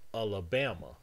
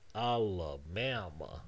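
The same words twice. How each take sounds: First: The first syllable is flat with no stress. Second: The first syllable carries a secondary stress. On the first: The speaker calls it wrong. "You can't just say it with the same flatness" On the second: The speaker calls it right. "You need to say Alabama is the word"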